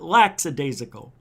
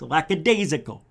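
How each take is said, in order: First: An s sound follows the first syllable. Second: No s sound follows the first syllable. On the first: The speaker calls it wrong. "It's not" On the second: The speaker calls it right. "No S. ... It's"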